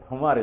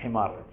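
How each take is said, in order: First: The first vowel is a 'u' sound. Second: The first vowel is an 'i' sound. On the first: The speaker calls it wrong. "ஹுமார் இல்ல" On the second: The speaker calls it right.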